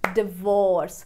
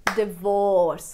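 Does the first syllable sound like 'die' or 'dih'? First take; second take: dih; dih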